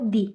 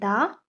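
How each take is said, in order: First: The word ends in a long 'ee' vowel. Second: The word ends in a short 'uh' vowel.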